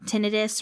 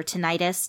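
First: "tinnitus" stressed on the first syllable, short i. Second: "tinnitus" stressed on a long-i middle syllable. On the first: Podcaster offers one way to say it, "tinnitus" as TIN-ih-tus. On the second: Podcaster offers the other way to say it, "tinnitus" as tih-NIGHT-us. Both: Shown as a demonstration. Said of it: "depending on how you want to say it".

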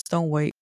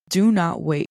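First: Said in the usual way. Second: "Do not wait" with a louder, punched "not"; firm "Do NOT wait", each word set apart; stress on NOT. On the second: Shown as a demonstration. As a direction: lean hard on "not" in "Do not wait".

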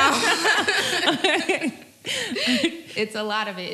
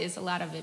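First: Slow, louder, laughing through it; amused laughing drawl. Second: Said in the usual way. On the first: Real, not acted. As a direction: laugh at how much there is. Laughing over the gossip.

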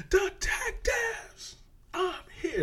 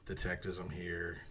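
First: Way up high and drawn out slowly; a high, slow mock villain call; sudden high-pitched Kevin Spacey. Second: Said in the usual way. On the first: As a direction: jump up high and stretch each word. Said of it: "all of a sudden he's like". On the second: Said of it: "And he's like".

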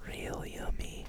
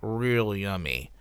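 First: Whispered, slow "Real yummy"; whispered cooking tip. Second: Low slow "Real yummy"; cooking tip signoff; soft real yummy. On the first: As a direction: breathe it out like a secret. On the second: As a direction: savour the words low and slow. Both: Shown as a demonstration.

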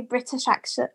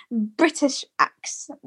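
First: "British accent" run together and slurred, the first try gone wrong; fumbled British accent. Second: "British accent" said again slowly, every sound placed with care; slow down and land "British accent" cleanly; careful retry. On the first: Guest trips over the words on the radio, slurred. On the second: Guest retries the phrase on air, slow and careful. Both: Real, not acted. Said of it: "I can't say it properly".

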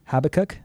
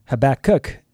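First: "Habakkuk" as HAB-uh-kuk; questioning HAB-uh-kuk, raised at the end of "Habakkuk"; alternative pronunciation. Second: "Habakkuk" drawn out as huh-ba-KOOK; slow "Habakkuk", weight on its ending; stress on last syllable. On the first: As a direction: stress the first syllable of "Habakkuk". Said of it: "I've heard it Habakkuk". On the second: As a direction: lean on the final syllable of "Habakkuk". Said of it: "it emphasizes the last syllable". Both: Shown as a demonstration.

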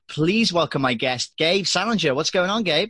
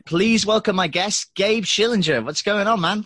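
First: Upbeat announcer intro, first take; host introduction. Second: Big announcer intro. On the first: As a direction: introduce the guest with energy. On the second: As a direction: sell the guest's name like a showman. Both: Acted. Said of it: "let me re-record that bit".

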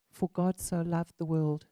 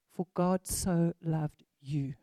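First: Said in the usual way. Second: Slow, leaning on "you" to make it personal; "you" said slowly and pointedly, aimed at each listener; slow personal emphasis. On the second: Real, not acted. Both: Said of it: "take it very personally".

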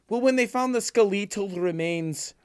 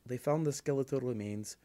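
First: "skeletal" said as skuh-LEE-tul, high and loud; odd skeletal pronunciation. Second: Said in the usual way. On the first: Retold or imitated. Quoting the girl from the Irish documentary, "skeletal" as skuh-LEE-tul. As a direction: stretch "skeletal" slowly with the stress on a long LEE. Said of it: "And this girl goes". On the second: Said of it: "it's Irish. They're like".

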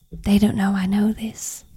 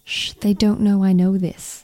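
First: Put-on American accent; hushed American TikTok voice. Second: Put-on hushed American accent. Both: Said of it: "That's my American accent".

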